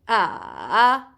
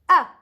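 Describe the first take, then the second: First: The pitch dips down and then rises. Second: The pitch starts high and falls sharply. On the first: "you go from up to down to up" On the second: "you go from up, up, up, then you go down with your voice"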